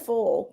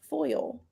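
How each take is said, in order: First: The vowel sounds like the one in 'pull'. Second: The vowel sounds like the one in 'boil'. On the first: The speaker calls it wrong. "I caught myself saying full yesterday" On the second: The speaker calls it right. "You know how to pronounce this word"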